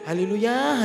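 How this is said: It is said in a grumbling, complaining tone. The praise hides dissatisfaction. The speaker calls it wrong. "Haleluya tapi mengeluh itu"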